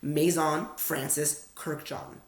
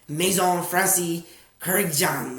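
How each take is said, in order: First: It is said with an American accent. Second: It is said with a French accent. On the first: "That's how Americans would say it" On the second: "in a French accent"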